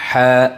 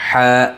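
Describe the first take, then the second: The two takes are said the same way.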